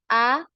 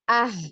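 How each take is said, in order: First: The vowel fades out naturally with the breath. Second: The vowel ends with an audible breathy h. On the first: The speaker calls it right. "biarkan ya suara itu berhenti ya secara alami" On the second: The speaker calls it wrong. "seperti ada huruf H di belakang"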